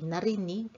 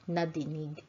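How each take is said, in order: First: The middle consonant is an R sound. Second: The middle consonant is a D sound. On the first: The speaker calls it right. "we changed the letter D in dinig to an R" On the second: The speaker calls it wrong. "It rolls better to say narinig instead of nadinig"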